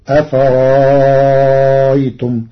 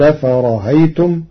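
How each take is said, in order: First: The hamza becomes a long, extended vowel. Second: The hamza is softened, between hamza and vowel. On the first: "وإبدالها حرف مد مع الإشباع" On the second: "جاز له في همزها التسهيل"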